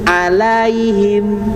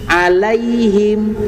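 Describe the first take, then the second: The two takes are said the same way.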